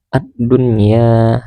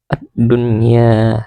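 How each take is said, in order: No difference in how they are said.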